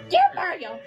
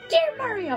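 First: It is said in the speaker's own voice. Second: It is said in a put-on Toad voice.

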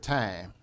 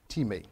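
First: It sounds like the English word 'tyme'. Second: It sounds like 'tee-may', with two syllables. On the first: The speaker calls it wrong. "Not pronounced like our English word time" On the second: The speaker calls it right. "That's T-E-E-M-A-Y"

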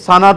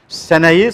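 First: The word is said with a vowels. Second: The word is said with e vowels. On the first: This is the city form. "Şehirliler seneyi sana diyorlar" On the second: This is the old rural form. "Şehirliler seneyi sana diyorlar"

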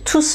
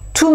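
First: The final S sound is clearly pronounced. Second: The final S sound is silent. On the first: It stands alone as a pronoun next to a verb. "pourquoi je prononce le S dans l'autre cas?" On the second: It goes with the noun that follows. "je ne prononce pas le S"

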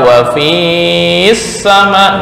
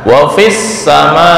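First: The vowel in fi is held long. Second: The vowel in fi is short and pressed on. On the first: The speaker calls it wrong. "enggak boleh dibaca wa fis sama" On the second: The speaker calls it right. "Langsung ditekan"

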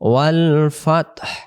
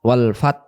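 First: The word ends with a clear breathy h sound. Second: The word ends without any h sound. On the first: The speaker calls it right. "শেষে দেখেন একটা হায়ের উচ্চারণটা বেশি আসতেছে" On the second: The speaker calls it wrong. "তখন এই হা অক্ষরটা কোনো উচ্চারণ আসে না"

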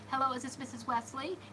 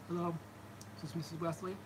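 First: The voice is pitched higher. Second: The voice is pitched deeper. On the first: The speaker calls it wrong. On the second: The speaker calls it right.

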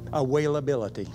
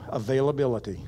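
First: The v is said as a w sound. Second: The word is said with a normal v sound.

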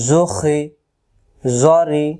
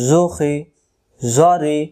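The two takes are said the same way.

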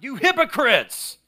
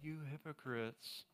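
First: It is said loudly and forcefully. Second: It is said mildly, without force.

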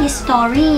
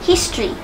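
First: The stress is on the second syllable. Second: The stress is on the first syllable. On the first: The speaker calls it wrong. "เนี่ยมันจะไป stress ที่คำว่าต่อใช่ไหมเราไม่เอา" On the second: The speaker calls it right. "จะดีที่สุดนะคะ"

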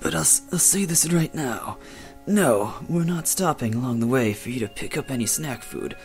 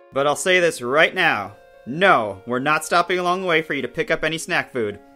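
First: It is said in a fifties mobster voice. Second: It is said in a normal voice.

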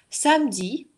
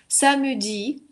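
First: The middle vowel is dropped, giving two syllables. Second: The middle vowel is pronounced, giving three syllables. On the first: This is the ordinary everyday way of saying it. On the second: This is a very careful, rarer way of speaking.

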